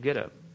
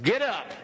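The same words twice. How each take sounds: First: It is said gently and softly. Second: It is said firmly and forcefully.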